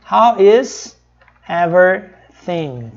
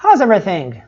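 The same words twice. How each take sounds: First: Very slow, every word apart; slow careful teaching read; slow, separated. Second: Quick contracted How's; natural native speed. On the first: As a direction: say it slowly for learners. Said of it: "Só que eles não falam devagar assim". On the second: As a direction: run How's everything together fast. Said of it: "vão falar sempre assim". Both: Shown as a demonstration.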